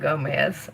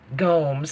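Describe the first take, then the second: First: The name does not rhyme with Holmes. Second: The name rhymes with Holmes. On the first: The speaker calls it wrong. "Not Gomez. I always say it wrong" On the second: The speaker calls it right. "like Holmes"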